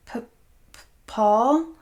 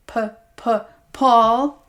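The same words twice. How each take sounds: First: Frightened stutter, pitched up; a scared woman stammers her abuser's name; stammering in fear. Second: Cruel high-pitched imitation of her stutter; the abuser mocks her frightened stammer; mocking stammer. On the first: Acted. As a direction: stumble over his name, terrified. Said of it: "Scarlett stammered". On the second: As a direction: mimic her fear to taunt her. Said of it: "the man mocked".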